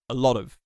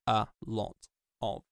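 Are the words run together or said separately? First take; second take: together; separately. First: The words run together in one reduced chunk. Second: Each word is pronounced fully and separately. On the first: The speaker calls it right. "we are used to hearing phrases like a lot of said like a lot of" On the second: The speaker calls it wrong. "not like a lot of"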